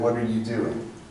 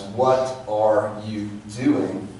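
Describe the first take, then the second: First: The phrase is compressed, with some sounds dropped. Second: Every sound in the phrase is clearly articulated. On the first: "It's compressed, and we're missing some of the phonemes" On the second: "articulate it as"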